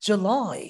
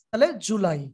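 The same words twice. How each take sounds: First: July with লাই stressed. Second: Said in the usual way. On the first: Shown as a demonstration. Teacher contrasts stressed July with flat one. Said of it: "আর লাইতে জোর দেই". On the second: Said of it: "একটাও জোর দিলাম না".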